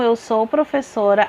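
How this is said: It is said calmly with a falling, statement tune. The speaker asserts a fact.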